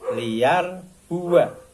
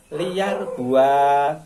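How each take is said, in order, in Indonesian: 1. Vokal setelah b dibaca pendek. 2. Vokal setelah b dibaca panjang. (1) "Wana tidak dibaca panjang" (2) "Kalau tidak tahu membacanya ya liar buah karena ada alif"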